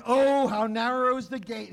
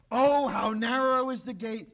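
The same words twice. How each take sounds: First: "Oh" leaned on, a mild warning. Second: "Oh" stressed, a plain firm declaration; declaring. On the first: Preacher voicing Jesus warning the crowd, mild warning. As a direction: caution them, lightly. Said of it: "he warns". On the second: Preacher voicing Jesus declaring to listeners, mild declaration. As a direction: proclaim it, understated. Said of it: "he declares". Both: Retold or imitated.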